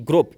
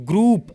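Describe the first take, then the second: First: "group" with a short o, like grop; "group" with its oo shortened to o; mispronunciation demo. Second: "group" with a long oo vowel, groop; correct pronunciation demo. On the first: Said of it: "not group". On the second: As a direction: model "group" with a drawn-out oo. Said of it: "You will have to pronounce that word as". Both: Shown as a demonstration.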